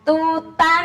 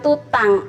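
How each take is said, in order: First: The final nasal is a soft, partial 'ng' sound. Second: The final nasal is a full, clear 'ng' sound. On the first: The speaker calls it right. "ada engnya tapi tidak eng seratus persen" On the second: The speaker calls it wrong. "Bukan tutang"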